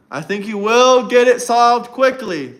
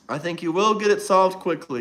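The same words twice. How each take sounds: First: Louder, stressed "will" with a falling finish; emphatic. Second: Said in the usual way. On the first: Acted. Streamer to chat, pressing hard on "will". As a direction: lean hard on "will" as if promising. Mock-sincere praise to Trump.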